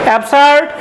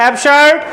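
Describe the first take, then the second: The two takes are said the same way.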